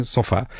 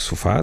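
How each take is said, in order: First: Sofá with an open "ó" in the first syllable; sofá dito com O aberto, "sófá". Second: Sofá with a closed, reduced "u" sound in the first syllable; sofá dito com O fechado, "sufá". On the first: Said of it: "há pessoas que dizem sofá". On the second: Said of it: "eu digo sofá". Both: Shown as a demonstration.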